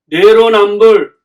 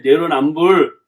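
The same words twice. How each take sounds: First: 내로남불 stretched slow and loud; drawn-out emphasis. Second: Said in the usual way. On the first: Real, not acted. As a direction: punch out 내로남불, dragging each syllable. Slogan repeated for emphasis. (내로남불을 크고 길게 늘여 강조)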